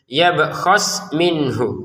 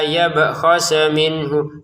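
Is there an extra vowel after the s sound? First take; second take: no; yes. First: The s runs straight into minhu. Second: An extra e vowel follows the s. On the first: The speaker calls it right. "gitu ya" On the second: The speaker calls it wrong. "Jangan dibaca ... enggak ada e ya di sini"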